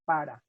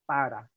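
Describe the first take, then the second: First: The r is a quick tap and the p is unaspirated. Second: The same.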